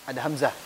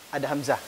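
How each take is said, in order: No difference in how they are said.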